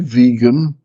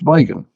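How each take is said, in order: First: The word has its standard, usual pronunciation. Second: The word has the speaker's southern pronunciation. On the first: The speaker calls it right. "I can say vegan" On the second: The speaker calls it wrong. "when I think about it, it's vegan"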